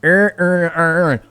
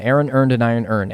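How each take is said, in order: First: Every word sounds like earn in Baltimore accent. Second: The vowels stay distinct in a general accent. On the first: "it don't sound like earn earn" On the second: "I ain't from Baltimore because I can say it"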